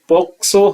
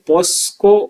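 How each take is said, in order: First: The middle sounds are k then s. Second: The middle sounds are s then k. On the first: The speaker calls it right. "इसका सही उच्चारण पॉक्सो है" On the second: The speaker calls it wrong. "आमतौर पे इसका उच्चारण है वो पॉस्को किया जाता है कई लोगों के द्वारा, जो गलत है"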